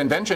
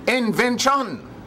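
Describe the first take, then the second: First: The word is said quickly and flatly. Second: The word is broken into full, separate syllables. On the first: The speaker calls it wrong. "You don't say invention" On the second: The speaker calls it right. "you can break down the words"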